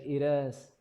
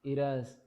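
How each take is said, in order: Both takes have the same delivery.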